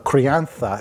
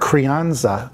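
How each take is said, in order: First: The word is said with a Spanish pronunciation. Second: The word is said with an English pronunciation.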